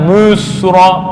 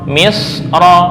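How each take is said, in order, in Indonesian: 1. Vokal pertama dibaca tebal dan terlalu berat. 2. Vokal pertama dibaca tipis, dengan sedikit ketebalan. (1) "bukan musra, beda" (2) "misra bukan musra"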